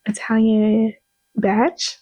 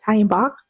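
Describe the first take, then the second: First: "Batch" with a short a as in cat and a ch ending; unsure American-English try at "Batch"; BATCH pronunciation. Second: "Bach" with an open ah and a hard k; questioning second try, "Bach" as "bahk"; BACH pronunciation. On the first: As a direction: say "Batch" to rhyme with match. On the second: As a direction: say "Bach" like "bock", ending in k. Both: Shown as a demonstration. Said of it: "I don't know how to pronounce their names".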